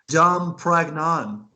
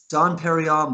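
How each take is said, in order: First: The second word starts with a squeezed 'prag'. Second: The second word starts with a full 'peh-ree'. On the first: The speaker calls it wrong. "but she said Dom Pragnon" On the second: The speaker calls it right. "the name of the champagne is Dom Perignon"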